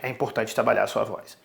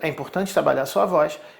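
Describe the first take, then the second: First: It is said at a deeper pitch. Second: It is said at a higher pitch.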